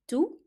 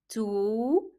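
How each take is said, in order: First: The vowel is short and clipped. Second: The vowel is drawn out long. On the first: "Carrying the short vowels, it will sound like" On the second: "it will be lengthened"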